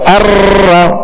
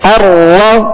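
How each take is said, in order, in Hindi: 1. r में तेज़ और लंबा कंपन है। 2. r में हल्का सा कंपन है। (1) "ये बहुत सी रा पैदा होगी" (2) "हल्की सी कपकपाहट होगी"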